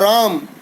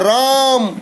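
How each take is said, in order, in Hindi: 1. पहले स्वर को थोड़ा अधिक खींचा जाता है। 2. पहले स्वर को बहुत लंबा खींचा जाता है। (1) "यह थोड़ा दीर्घ हो गया" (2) "तो रा को कितना खींचा"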